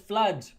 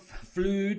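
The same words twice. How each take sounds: First: The vowel does not sound like food's vowel. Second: The vowel sounds like the vowel in food. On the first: The speaker calls it right. "It's flood" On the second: The speaker calls it wrong. "not flood, like food and flood"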